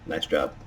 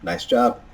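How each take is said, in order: First: It sounds flat, plain and sarcastic. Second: It sounds sincere and positive.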